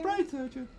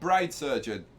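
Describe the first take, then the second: First: It is said in an exaggerated put-on voice. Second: It is said in a plain, natural voice. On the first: The speaker calls it right. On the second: The speaker calls it wrong.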